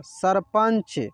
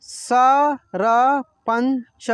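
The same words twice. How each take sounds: First: Said in the usual way. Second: sarpanch drawn out as स-र-पंच, very slowly; slow syllable reading. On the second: Shown as a demonstration. (Sarpanch को बहुत धीरे, टुकड़ों में बोलिए) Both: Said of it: "जैसे जैसे मैं पढ़ रहा हूँ ना".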